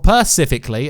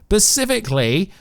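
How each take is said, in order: First: The word begins with a p sound. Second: The word begins with an s sound. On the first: "as you guys love to call it" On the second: "specifically or pacifically"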